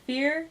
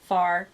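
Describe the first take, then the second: First: The name rhymes with the word fear. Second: The name rhymes with the word far. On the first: "I've heard it said fear" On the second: "pronounce it in a southern way"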